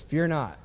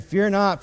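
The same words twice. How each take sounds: First: Said in the usual way. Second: "Fear not" said higher and louder, firmly; bold fear not. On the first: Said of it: "He's just cool as a cucumber". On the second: Retold or imitated. Elisha answering his scared servant, bold and louder. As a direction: declare "Fear not" with full confidence. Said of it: "And he answered".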